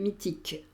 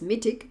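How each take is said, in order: First: It is said with French, steadily falling intonation. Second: It is said with English intonation.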